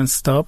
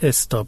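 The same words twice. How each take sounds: First: The word begins directly with the s sound. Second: A short vowel comes before the s sound. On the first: "انگلیسی میگن استاپ" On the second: "ما میگیم استاپ"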